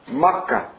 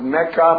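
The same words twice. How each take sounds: First: The name is said the original Arabic way. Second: The name is said the common anglicized way. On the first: This is the original form of the name. "the real pronunciation of the city is Mecca" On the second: This is the popular form of the name. "popularly known as Mecca"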